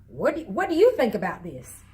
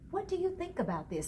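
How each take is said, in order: First: It is asked in a harsh, judgmental tone. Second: It is asked in a soft, gentle tone.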